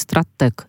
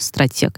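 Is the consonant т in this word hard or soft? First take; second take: hard; soft. First: The т is hard, followed by an 'e' sound. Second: The т is soft, followed by an 'ye' sound.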